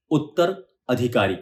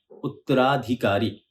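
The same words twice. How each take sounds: First: उत्तर अधिकारी slow, break after उत्तर; split slowly. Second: उत्तराधिकारी slow, joined into one word; joined slowly. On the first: Teacher splitting a hard word, slow. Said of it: "अब इसको जोड़कर बोलेंगे". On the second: Teacher joining the parts back, slow. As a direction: run उत्तराधिकारी together, slowly. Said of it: "जोड़कर बोलेंगे". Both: Shown as a demonstration.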